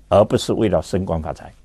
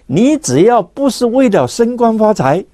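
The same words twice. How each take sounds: First: 整句压低、放轻，重读“不”; 低沉地把“不是”落下去; 低声收尾. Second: “你”字读得高而重; 把“你”字重重地往上顶. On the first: 讲课中下结论. (声音放低，轻而重地说“不是”) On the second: 讲课中强调条件. (升调强调“你”，语气高昂) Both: Real, not acted.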